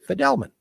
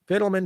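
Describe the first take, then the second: First: The first syllable does not sound like fiddle. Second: The first syllable sounds like the word fiddle. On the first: This is how only the immediate family says it. The speaker calls it right. "The right name to pronounce the name is" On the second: This is how the wider family says it. The speaker calls it wrong. "We have been pronouncing the name wrongly"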